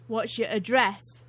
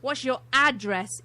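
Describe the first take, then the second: First: The word address is said the British way. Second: The word address is said the American way.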